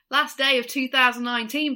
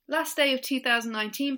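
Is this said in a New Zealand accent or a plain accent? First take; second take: New Zealand; plain. First: It is said in a put-on New Zealand accent. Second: It is said in the speaker's plain accent.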